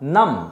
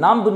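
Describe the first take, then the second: First: No b sound is heard at the end. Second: A b sound is heard at the end. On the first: The speaker calls it right. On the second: The speaker calls it wrong. "নাম্ব নয়"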